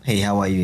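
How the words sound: It is said quickly and offhandedly.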